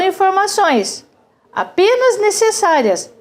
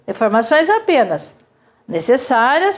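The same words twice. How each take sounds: First: The pause comes before the word apenas. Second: The pause comes after the word apenas. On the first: Only the necessary information was given. "eu vou deixar essa, mas vou tirar essa. Como é que eu leio?" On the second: Only information was given, nothing else. "vamos tirar essa e deixar esta. Como é que a gente vai ler a frase?"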